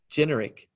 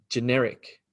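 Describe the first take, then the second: First: "generic" stressed on GEN, falling after; first-syllable stress. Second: "generic" stressed on NER; short first syllable, weight on the NER of "generic"; second-syllable stress. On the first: Teacher contrasting two pronunciations, "generic" stressed on the first syllable. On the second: Teacher contrasting two pronunciations, "generic" stressed on the second syllable. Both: Shown as a demonstration. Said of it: "So the difference between".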